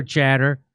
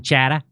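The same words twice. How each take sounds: First: Said in the usual way. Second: Boston accent, dropping the final R in "chatter". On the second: Shown as a demonstration. Podcast host rereading a quoted word as Bostonians say it, Boston accent. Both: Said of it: "as they say in Boston".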